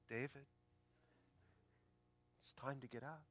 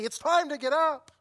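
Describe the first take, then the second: First: It is said softly and gently. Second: It is said loudly, like a scream.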